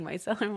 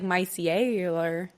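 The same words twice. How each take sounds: First: The word is said with its usual vowels. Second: The word is stretched with extra vowel sounds. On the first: "I'm like, micellar water" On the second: "there was a, way more vowels"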